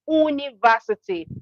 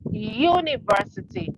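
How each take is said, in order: First: It begins with a plain vowel sound. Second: It begins with a y consonant sound. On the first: The speaker calls it wrong. "it is not university" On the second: The speaker calls it right. "it is university. So the letter U has the sound Y"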